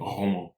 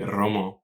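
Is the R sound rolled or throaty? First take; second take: throaty; rolled. First: The R is made in the throat. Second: The R is rolled with the tongue tip. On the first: The speaker calls it right. "when I should be saying Roman" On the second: The speaker calls it wrong. "I might say Roman"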